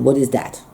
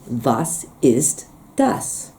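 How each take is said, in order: First: It is said in the local regional dialect. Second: It is said in standard High German.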